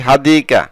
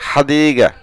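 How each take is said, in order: First: হাদিকা said with a hard k sound in the middle; হাদিকা as people commonly say it, k not g; common mispronunciation. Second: হাদিগা with a clear g, the proper Arabic way; correct pronunciation. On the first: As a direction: say হাদিকা the usual wrong way, with k. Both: Shown as a demonstration. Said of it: "সঠিক উচ্চারণ হচ্ছে".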